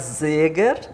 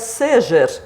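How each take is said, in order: First: It is pronounced with German sounds. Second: It is pronounced with Portuguese sounds. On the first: "Se fosse alemão seria Seger" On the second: "se fosse português seria Seger"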